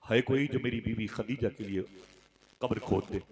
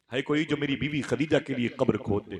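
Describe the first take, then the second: First: Said in the usual way. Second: Higher, more forceful retold request; earnest appeal to a gathering; raised appeal. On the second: A narrator's reading. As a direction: call out for a volunteer, pitch lifted.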